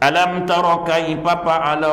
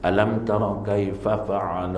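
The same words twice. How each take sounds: First: The f sounds are pronounced as p. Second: The f sounds are pronounced as f. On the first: The speaker calls it wrong. "Papa kan. ... salah tu bang. Bukan papa" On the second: The speaker calls it right. "bukan papa"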